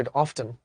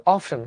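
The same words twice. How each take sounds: First: Often said with the t clearly sounded, "off-ten". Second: Often said the American way; often, American style; American pronunciation. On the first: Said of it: "মানে টটা নিয়ে আসে". (often, টটা স্পষ্ট করে) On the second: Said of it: "American বলে often". (often American উচ্চারণে) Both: Shown as a demonstration.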